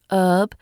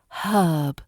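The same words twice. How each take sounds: First: The word starts without an h sound. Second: The word starts with an h sound. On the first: The speaker calls it wrong. "It's not herb" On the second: The speaker calls it right. "in British English we pronounce the h at the beginning"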